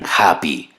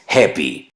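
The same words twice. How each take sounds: First: The first vowel sounds like Spanish 'a'. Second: The first vowel sounds like Spanish 'e'. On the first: The speaker calls it wrong. "la pronuncian happy" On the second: The speaker calls it right. "la letra A es E en inglés, lo correcto es happy"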